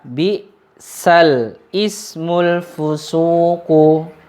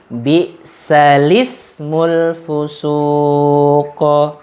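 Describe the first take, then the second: First: The glottal stop before ismu is pronounced. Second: The vowel moves onto the lam, no glottal stop. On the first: "Ini kalau kita baca normal" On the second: "kalau kita baca naql"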